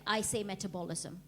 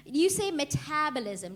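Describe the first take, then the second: First: "metabolism" with stress moved to "bo", her own way; own-accent "metabolism"; her own pronunciation. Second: "metabolism" with a flat British "ta"; mock British "metabolism"; British pronunciation. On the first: Shown as a demonstration. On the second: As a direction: say "metabolism" the way a Brit would.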